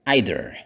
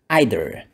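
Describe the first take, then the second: First: It is said in a British accent. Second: The same.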